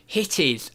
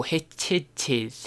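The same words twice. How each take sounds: First: "Hittiz" said slowly, ending in a z sound; wrong pronunciation. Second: "Hittites" drawn out very slowly, ending in "-tites"; correct pronunciation. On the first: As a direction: read it as "Hittiz", hesitantly, the wrong way. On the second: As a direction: stretch out "Hittites" slowly as the penny drops. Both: Real, not acted. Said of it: "Oh, Hittites".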